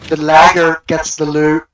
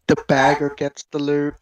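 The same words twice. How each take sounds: First: Lagger said instead of bagger, slower and louder; misspoken word. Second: Said in the usual way. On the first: Real, not acted. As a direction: stumble on "lagger", slow and louder.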